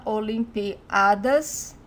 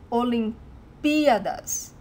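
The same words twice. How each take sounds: First: Olimpiadas slow, stressing the a of piadas; wrong stress on a. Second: Olimpíadas slow, with pí held and stressed. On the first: Teacher demonstrates the common wrong stress, weight on a. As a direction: demo the mistake: put the weight on the a in Olimpiadas. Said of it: "if you put the emphasis in the A ... it sounds wrong". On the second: Teacher shows where the stress falls, pí stressed slowly. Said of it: "the stressed syllable ... is this P". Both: Shown as a demonstration.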